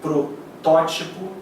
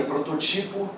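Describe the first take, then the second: First: "protótipo" slowly, stress on TÓ; slow, deliberate "protótipo" stressed third from last; correct protótipo. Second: "prototipo" with the stress on TI; wrongly stressed next-to-last syllable in "prototipo"; mispronounced prototipo. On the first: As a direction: say "protótipo" as pro-TÓ-ti-po. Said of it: "O certo é". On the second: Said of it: "Pronúncias erradas. A galera pronuncia". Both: Shown as a demonstration.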